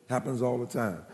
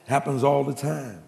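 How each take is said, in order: First: Softer knowing repeat of "Happens all the time"; quiet echo. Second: Said in the usual way. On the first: Shown as a demonstration. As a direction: let it fall away, softer, as an aside. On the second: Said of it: "repeated softer".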